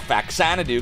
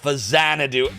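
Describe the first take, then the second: First: The middle consonant is a 'ks' sound. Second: The middle consonant is a plain 'z' sound. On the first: This is the habitual childhood way to say the name. "I call it Faxanadu because that's what I called it when I was a kid" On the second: This is the official way to say the name. "That's the proper pronunciation"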